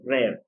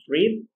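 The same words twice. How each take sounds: First: It is said with the past-tense pronunciation. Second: It is said with the present-tense pronunciation. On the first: "I say read in past" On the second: "second one is read"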